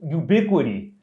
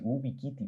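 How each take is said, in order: First: It is pronounced with English sounds and stress. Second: It is read with Spanish sounds, letter by letter. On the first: The word is recognized as English. The speaker calls it right. "eso es en inglés" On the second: The speaker did not know it was an English word. The speaker calls it wrong. "yo estaba tratando de decirlo así"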